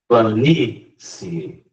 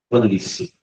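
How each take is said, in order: First: The final 'i' and 'e' are split into two syllables. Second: The final 'ie' glides together as one syllable. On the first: The word becomes stressed on the third-to-last syllable. "ela se transformaria em uma proparoxítona" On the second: The word ends in a rising diphthong. "sai do menos para o mais"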